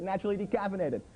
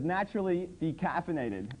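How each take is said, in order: First: Mocking. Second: Said in the usual way. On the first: Mocking the label phrase. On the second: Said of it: "on the package it says".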